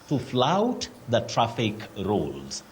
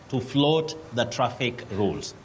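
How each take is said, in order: First: The verb's vowel sounds like 'ow'. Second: The verb's vowel sounds like 'oh'. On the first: The speaker calls it right. "you say flout" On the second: The speaker calls it wrong. "many people say float"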